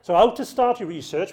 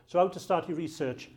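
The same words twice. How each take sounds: First: "how" stressed, louder, ending on a rise; heading read with an upward tune; rising title read. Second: Said in the usual way. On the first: Shown as a demonstration. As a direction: announce "So how to start your research" with a lift on "how".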